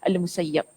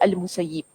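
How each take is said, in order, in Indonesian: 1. Vokal sebelum B terakhir adalah 'a'. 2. Vokal sebelum B terakhir adalah 'i'. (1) "kita baca dengan baris atas" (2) "Jangan baca Al-Musayyib"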